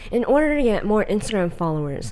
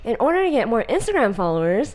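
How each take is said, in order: First: The voice falls at the end. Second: The voice rises at the end. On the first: It sounds commanding. The speaker calls it right. "make sure the ends of the sentences go down" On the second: It does not sound commanding. The speaker calls it wrong. "I don't go"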